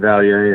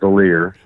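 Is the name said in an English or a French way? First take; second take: French; English. First: The name is said with a French pronunciation. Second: The name is said like English 'cavalier' minus 'ca'. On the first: "if you want to do the French version" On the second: "Kind of like Cavalier without the C A"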